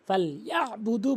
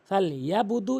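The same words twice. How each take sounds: First: A throat sound is made before the vowel. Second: There is no throat sound before the vowel. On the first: The speaker calls it right. "ফাল ইয়াবুদু বলতে হবে" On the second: The speaker calls it wrong. "এরকম না বলে"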